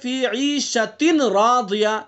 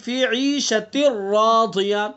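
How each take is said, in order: First: The n before radiya is pronounced clearly. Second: The n fully merges into the following r. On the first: "असल क्या है" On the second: "तो तनवीन साइलेंट हो गई"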